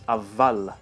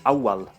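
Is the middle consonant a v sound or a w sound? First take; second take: v sound; w sound. First: The middle consonant is a v sound. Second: The middle consonant is a w sound. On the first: "the waw becoming pronounced like a vav" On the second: "The Arabic word for first is awwal"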